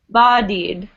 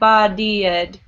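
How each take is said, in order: First: The word is said with two syllables. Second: The word is said with three syllables. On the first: The speaker calls it right. "pronounce it like it's just two syllables" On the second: The speaker calls it wrong.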